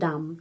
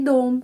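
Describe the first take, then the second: First: The vowel sounds like a. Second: The vowel sounds like o. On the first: The speaker calls it wrong. "Bukan dam" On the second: The speaker calls it right. "tapi dom. Karena huruf O ini mendapat penekanan"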